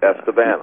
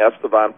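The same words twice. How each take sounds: First: Estevan ending like the English word "van"; Estevan with a short "a" as in "cat" at the end; corrected Estevan. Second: Estevan ending in a broad "vahn"; Estevan with an open "ah" in the last syllable; mispronounced Estevan. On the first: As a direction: repeat Estevan as ESS-tuh-van. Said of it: "We say Estevan". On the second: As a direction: say Estevan as ESS-tuh-vahn. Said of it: "Am I pronouncing Estevan correctly?". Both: Shown as a demonstration.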